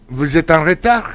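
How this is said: The voice rises at the end. It asks whether the listener is late. "If you make the inflection, I put a question mark, so it is a question"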